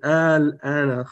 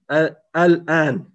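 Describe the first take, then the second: First: It begins with one long a-sound. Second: It begins with two separate a-sounds. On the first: The speaker calls it right. "Donc tu dis al-an kharajta" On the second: The speaker calls it wrong. "ça fait difficile à prononcer comme ça"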